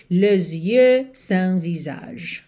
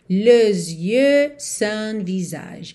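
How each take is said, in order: No difference in how they are said.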